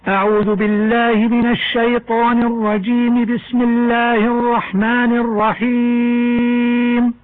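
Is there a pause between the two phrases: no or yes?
no. The two phrases run together without a pause. "وصل الاستعاذة بالبسملة"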